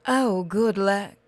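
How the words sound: It is said in another character's voice.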